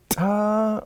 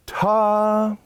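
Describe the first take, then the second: First: High "ta" with the stress only on the T; sharp T, then an unforced vowel on "ta"; accented T. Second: High "ta" with a loud, full vowel; sforzando vowel. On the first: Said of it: "instead of ta on an accent". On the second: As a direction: hit both the T and the vowel of "ta". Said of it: "the vowel also gets loud". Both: Shown as a demonstration.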